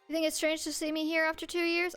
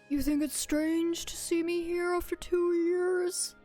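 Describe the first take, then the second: First: It is said in the speaker's natural voice. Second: It is said in a put-on character voice.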